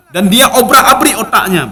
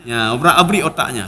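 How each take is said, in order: First: Laughing. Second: Dropped low and soft, repeating obrak-abrik otaknya; soft low echo of obrak-abrik otaknya; quiet echo. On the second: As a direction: murmur obrak-abrik otaknya back to himself. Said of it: "repeats phrase as an echo". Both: Real, not acted.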